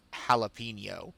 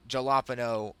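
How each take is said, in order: First: Said in the usual way. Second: "jalapeno" with a hard English J and plain N; deliberate mispronunciation. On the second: Shown as a demonstration. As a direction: say "jalapeno" as spelled, starting like "jam". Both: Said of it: "saying it like that because I know it bothers him".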